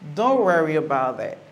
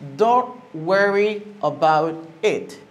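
First: The words are run together at natural speed. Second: Each word is said separately and carefully. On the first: "But now I'm going to say it normally" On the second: "I say the word individually because I want you to listen to its pronunciation"

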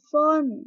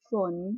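First: The word is said with a falling tone. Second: The word is said with a low tone. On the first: "ไม่โทฝน" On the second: "ไม่เอกฝน"

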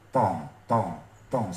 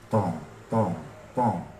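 First: The voice sounds open, without a hollow echo. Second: The voice sounds hollow, as if inside a barrel. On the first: "udah nggak di dalam tong" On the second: "Saya putar ke kiri"

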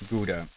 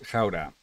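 First: It is said with an English pronunciation. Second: It is said with a Dutch pronunciation.

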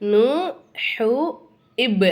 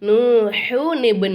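First: The words are said apart with no n sound. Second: An n sound joins the first word to the second. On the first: The speaker calls it wrong. "அப்படி சொல்லக்கூடாது" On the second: The speaker calls it right. "ஜாயின் பண்ணிக்கணும்"

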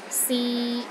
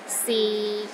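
First: The pitch is mid and steady. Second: The pitch is low and steady. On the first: It means to try. "a mid-tone. It's pronounced in the middle of your range and it is steady" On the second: It means is. "the sixth tone is low and steady, but not as low as the fourth tone"

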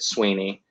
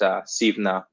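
First: The name is said with its English pronunciation. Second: The name is said with its Gaelic pronunciation. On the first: "the English couldn't say Irish names very well, so they just said Sweeney" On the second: "In Gaelic, it's pronounced Suibhne"

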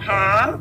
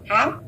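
First: The word carries a drawn-out ngã tone. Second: The word carries a dipping hỏi tone. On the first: "hãm dấu ngã là mình đọc hãm kéo dài" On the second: "hãm dấu hỏi là đọc hãm đấy"

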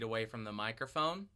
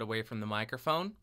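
First: The voice sounds somewhat farther and roomier. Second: The voice sounds near and direct. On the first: "2 feet away from the microphone" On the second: "About 1 foot away from the microphone"

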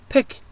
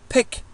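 No difference in how they are said.

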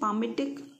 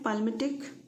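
First: No L sound is heard before the M. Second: An L sound is heard before the M. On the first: It is the actual pronunciation. "इसका जो pronunciation है वो है पामिटिक" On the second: It helps to remember the spelling. "पाल्मिटिक इसलिए बोलते हैं क्योंकि spelling याद रहता है"

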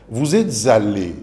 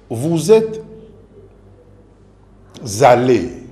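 First: The words are linked smoothly together. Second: The words are broken apart, not linked. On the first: The speaker calls it right. "c'est juste" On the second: The speaker calls it wrong. "ce n'est plus juste puisque le tout n'est pas lié"

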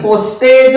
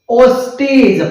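First: The last syllable has an ay vowel. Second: The last syllable has an ee vowel. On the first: The speaker calls it wrong. "पोस्टेज म्हणत नाही" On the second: The speaker calls it right. "ईचा उच्चार होतो"

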